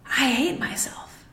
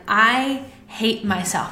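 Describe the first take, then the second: First: Whispered, slow, stress on hate. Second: Said in the usual way. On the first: Acted. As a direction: breathe it out as a whispered confession. Repeats the thought, then whispers it.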